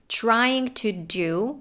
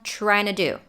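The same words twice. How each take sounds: First: Each word is said fully and separately. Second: The words blend together into a reduced form. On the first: "the words trying to do"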